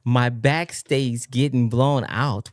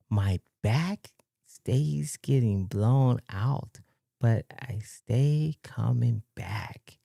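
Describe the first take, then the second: First: Said in the usual way. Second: Very slow and soft, phrase by phrase; slow, hushed, baffled read-aloud; puzzled slow reading. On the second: Real, not acted. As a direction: read it out haltingly, trying to make sense of it. Rereads baffling message word by word.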